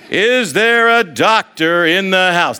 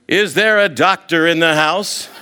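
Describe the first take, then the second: First: Louder, higher and slow, with a laugh; drawn-out mock yell. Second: Raised, playful call across a crowd; mock yell. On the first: Friend hamming it up across the airport, slow booming yell. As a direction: stretch it out and boom it like a silly announcement. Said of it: "That's exactly how he's doing it". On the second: Friend calling across the airport, playful raised yell. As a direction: call it out to the whole terminal, half joking. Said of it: "he starts yelling in the Phoenix airport".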